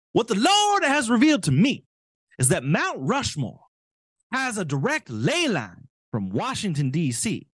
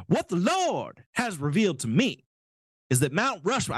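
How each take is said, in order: First: Higher, louder put-on zealot voice; mock zealot voice. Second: Said in the usual way. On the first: Host re-reads the politician's quote as he imagines him talking, mock zealot. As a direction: ham up the politician's holy revelation. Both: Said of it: "I just assume this is how he talks".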